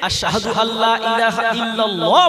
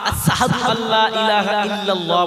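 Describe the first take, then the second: First: The opening word has its standard pronunciation. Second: The opening word is pronounced in an altered way. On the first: This is the form he was unable to say. The speaker calls it right. "বলতে পারতেন না" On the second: This is how he said it after his tongue was injured. The speaker calls it wrong. "বলতেন"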